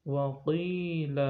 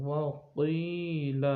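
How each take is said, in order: The two takes are said the same way.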